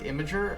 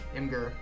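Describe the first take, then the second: First: It is said like 'imager', with a soft g. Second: It is said like 'im-gur', with a hard g.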